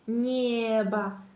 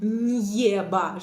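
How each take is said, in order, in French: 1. Le n doux passe directement à la voyelle e. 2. Un son 'y' séparé est inséré avant la voyelle. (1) "je dis небо" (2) "je ne divise pas le mot en небо"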